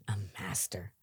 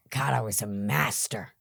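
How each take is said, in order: First: A soft, breathless whisper, much lower and quieter; whispered echo. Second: Said in the usual way. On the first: Real, not acted. Recovering addict repeating his past to the host, whispering. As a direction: let it drop to a whisper as if ashamed.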